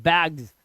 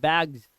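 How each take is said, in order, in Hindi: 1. शब्द z ध्वनि से खत्म होता है। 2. शब्द z ध्वनि से खत्म होता है।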